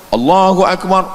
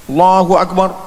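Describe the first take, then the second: No difference in how they are said.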